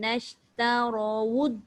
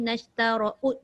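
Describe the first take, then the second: First: The second word starts with rounded lips, w. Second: The second word starts with a glottal catch. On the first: The speaker calls it right. "Waw tu kat bibir kan" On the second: The speaker calls it wrong. "tak boleh tolak melalui tempat keluar hamzah macam Puan Ain baca tadi"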